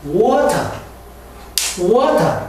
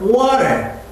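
First: British water with a crisp T, "wo-ta"; water in a British accent, "wo-ta". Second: American water with a flapped T, "wa-rer"; water in an American accent, flapped T. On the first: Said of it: "영국에서는". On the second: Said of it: "미국에서는". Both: Shown as a demonstration.

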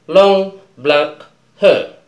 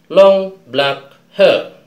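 The two takes are said the same way.

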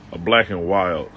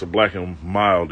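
First: "Wild" said with a clear W, not M. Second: Said in the usual way. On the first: Shown as a demonstration. The "Wild" slang for his cigar, said with a W. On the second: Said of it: "if you mortal".

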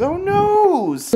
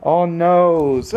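First: "noes" squeaked up very high; mock dismay, pitched way up; high baby talk. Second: Said in the usual way. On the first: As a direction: coo "Oh, noes" in a high, cutesy voice. Cooing, repeated much higher.

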